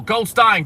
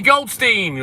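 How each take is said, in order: First: Goldstein ending like "stine"; second reading of Goldstein, rhyming with "fine"; pronunciation variant. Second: Goldstein ending like "steen"; first reading of Goldstein, rhyming with "seen"; pronunciation variant. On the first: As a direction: say Goldstein with an "eye" vowel in the last syllable. Offers the other reading after "or. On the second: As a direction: say Goldstein with a long "ee" in the last syllable. Tries two readings of surname. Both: Shown as a demonstration.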